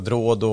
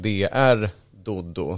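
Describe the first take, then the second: First: The name is run together into one word. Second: The name is said as separate parts. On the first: The speaker calls it wrong. "det blir ofta Drodo" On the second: The speaker calls it right. "det är liksom DR Doddo"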